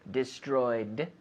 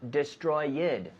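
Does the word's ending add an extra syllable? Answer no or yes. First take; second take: no; yes. First: The ending is a plain D, no extra syllable. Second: The ending adds an extra syllable before the D. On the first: The speaker calls it right. "With the D sound, destroyed, but no extra syllable" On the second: The speaker calls it wrong. "That is, not destroyed. No, no"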